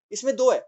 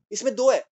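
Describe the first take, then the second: No difference in how they are said.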